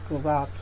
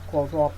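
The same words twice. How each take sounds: First: The first syllable has a reduced schwa vowel. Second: The first syllable has a full vowel. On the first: The speaker calls it right. "but corrupt" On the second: The speaker calls it wrong. "not corrupt"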